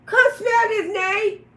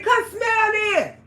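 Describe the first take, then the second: First: High loud call to Nate; retold shout. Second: Slow high yell, come stressed; retold shout. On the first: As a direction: yell it at Nate, insisting. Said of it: "I say". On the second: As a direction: holler it at him, slow and loud. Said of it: "I said".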